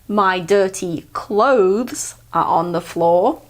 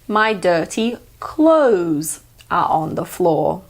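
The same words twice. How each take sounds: First: Clothes is said with a th sound before z. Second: Clothes is said without th, like close. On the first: "instead of saying my dirty clothes are on the floor" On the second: "you can say close, like I close the door"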